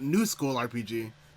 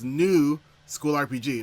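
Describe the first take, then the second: First: 'New school' is said together as one unit. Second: A break sets 'new' apart from 'school RPG'. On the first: The game is in a modern style, not old-school. The speaker calls it wrong. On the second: It is a new game set in a school. The speaker calls it right. "that little dot here separates it. So it's"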